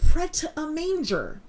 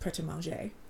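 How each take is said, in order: First: The name is said with flat anglicized sounds. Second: The name is said with French-like sounds. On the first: The speaker did not know how to pronounce it. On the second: The speaker now knows the proper pronunciation. "it is pronounced Pret-a-Manger"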